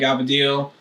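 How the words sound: It is said in the family's dialect form. This is the family's home name for the pasta. "My mom always called it gavadil"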